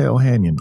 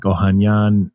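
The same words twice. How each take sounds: First: Said in the usual way. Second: "Ohanyan" the Armenian way, with open "ah" vowels; Armenian pronunciation. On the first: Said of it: "but I just say Ohanian". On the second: Shown as a demonstration. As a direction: say "Ohanyan" as oh-HAHN-yahn. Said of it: "much more Armenian way of doing it".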